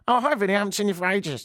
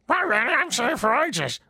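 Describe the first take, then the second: First: It is said in a plain voice. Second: It is said in an annoying, Marge Simpson-like voice.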